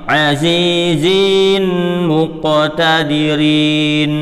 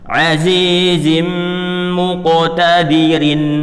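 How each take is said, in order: First: The vowels are drawn out and lengthened. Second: The vowels are kept short, not lengthened. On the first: The speaker calls it wrong. "Ini contoh yang salah ini" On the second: The speaker calls it right. "Sama cara bacanya juga jangan dipanjangkan"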